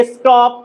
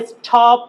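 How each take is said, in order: First: "stop" as "es-top", unaspirated t; correct pronunciation. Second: "stop" as "es-thop", aspirated t; wrong pronunciation. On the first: Teacher modelling the sound after s, correct pronunciation. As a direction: say "stop" with a plain Bengali ট. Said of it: "বারবার বলার try করি". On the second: Teacher showing the common mistake, mispronounced. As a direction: say "stop" with a breath puff after t, like ঠ. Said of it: "not stop". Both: Shown as a demonstration.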